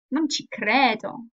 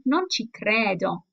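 First: Non ci credo slow, stress on non, falling flatly; slow incredulous Non ci credo; disbelieving. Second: Disbelieving. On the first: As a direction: say Non ci credo like you can't believe it. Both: Shown as a demonstration. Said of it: "needs to have some clear intonation".

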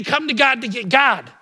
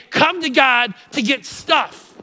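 First: "Come to God to get God." with the final "God" stressed and falling; right version. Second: "Come to God to get stuff." said slow and mocking, dwelling on "stuff"; wrong version. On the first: Preacher giving the congregation the true saying, stressing God. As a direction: land firmly on the last "God". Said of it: "We say". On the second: Preacher showing the congregation the wrong saying, slow and mocking. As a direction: drag out "stuff" like a wrong idea. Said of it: "We don't say". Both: Shown as a demonstration.

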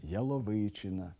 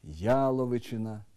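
First: Яловичина stressed on the second syllable, ялОвичина; wrong stress. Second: Яловичина stressed on the first syllable, Яловичина; correct stress. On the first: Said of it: "Неправильно". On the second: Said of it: "порушують наголос у таких словах". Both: Shown as a demonstration.

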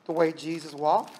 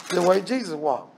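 First: Way lifted on a rise; way rising, Jesus walked dropping softer; stress on way. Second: Jesus stressed, falling tune; Jesus punched, phrase falling away. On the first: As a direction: lean on the word way, let it climb. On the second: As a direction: hit the name Jesus. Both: Shown as a demonstration.

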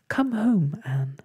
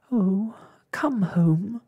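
First: High, urgent little plea; frightened whisper. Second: High, slow storybook wail. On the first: Ragged Blossom begs Anne to leave, frightened. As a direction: plead anxiously to be taken home. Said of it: "whispered Ragged Blossom". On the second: Ragged Blossom pleads to leave the hospital, wailing. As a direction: draw the plea out into a wail. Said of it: "wailed Ragged Blossom". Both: A narrator's reading.

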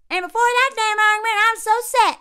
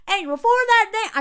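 First: Loud, high, fast Southern twang; parents' Southern accent. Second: High, loud imitation Southern accent; put-on Southern accent, pitched up; wavering Southern accent. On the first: Retold or imitated. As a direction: exaggerate a thick rural Southern accent. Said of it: "use the accent of his parents". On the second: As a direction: slip into a mock Southern accent. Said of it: "I keep changing accents".

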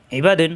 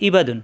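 First: ইবাদুন with ain pressed in the mid throat; teacher modelling the right ইবাদুন; correct throat ain. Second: ইবাদুন with a hamza start, no throat squeeze; teacher demonstrating the wrong ইবাদুন; wrong hamza version. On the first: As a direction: squeeze the start of ইবাদুন from the throat. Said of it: "এই চাপ দিতে হবে". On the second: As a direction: show the mistaken ইবাদুন lightly. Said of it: "তাহলে হামজা হয়ে যায়". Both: Shown as a demonstration.

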